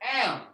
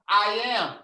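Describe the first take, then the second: First: The two words are joined into one syllable. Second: Both words are said fully and separately. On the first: The speaker calls it right. "That says am" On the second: The speaker calls it wrong. "You were saying I am. But that doesn't say I am"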